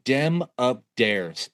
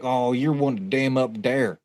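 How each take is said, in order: First: "Dem up dares" dragged out slowly in a thick Appalachian drawl; slow hillbilly drawl. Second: A light mock Appalachian drawl, slowed down; hillbilly drawl. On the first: Retold or imitated. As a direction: stretch each word like the roadside stranger, in an Appalachian drawl. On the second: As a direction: drag the words out like the backwoods stranger, only lightly. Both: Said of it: "that was legit how this man sounded".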